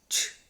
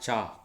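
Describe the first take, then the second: First: The consonant is said alone with no vowel. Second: The consonant is followed by a short vowel. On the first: The speaker calls it right. "let's practice it" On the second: The speaker calls it wrong.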